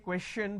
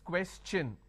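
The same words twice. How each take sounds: First: The middle sound is a soft sh. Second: The middle sound is a ch. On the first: The speaker calls it wrong. "I can't say question because T I O N is sh sound" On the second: The speaker calls it right. "the T I O N becomes ch n"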